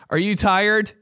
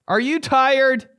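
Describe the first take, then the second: First: Said in the usual way. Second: Higher, slower crooned question; rock singer voice. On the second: Pretend. Repeated in the singer voice.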